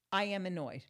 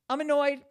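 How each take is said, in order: First: Said in the usual way. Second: I'm annoyed pushed out much louder. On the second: Real, not acted. Repeating to her viewers, loudly annoyed. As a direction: snap the line I'm annoyed out hard.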